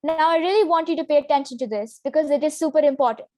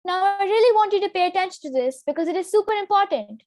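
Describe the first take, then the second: First: Lower, serious and fast; low pitch. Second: Higher and fast; high, quick, not serious; high pitch. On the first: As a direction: drop the pitch to sound authoritative. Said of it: "And with the low pitch, it sounds like". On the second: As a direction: rush it up high, a bit flippant. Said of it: "With a high pitch, the sentence sounds like". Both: Shown as a demonstration.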